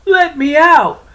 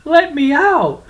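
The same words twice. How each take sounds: First: Even higher, louder desperate cry; louder shouting. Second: High loud desperate cry; shouting. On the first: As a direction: scream it louder still. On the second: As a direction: yell from inside the sack. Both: Acted. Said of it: "cried, cursed".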